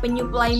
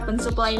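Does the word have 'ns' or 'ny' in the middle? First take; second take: ny; ns. First: The middle has a single nasal 'ny'. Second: The middle has an 'n' followed by 's'. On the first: The speaker calls it right. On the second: The speaker calls it wrong.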